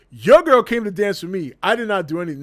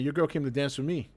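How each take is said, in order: First: Louder, defiant retort; in his face. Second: Said in the usual way. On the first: Retold or imitated. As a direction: throw it right in his face. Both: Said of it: "straight up to his face".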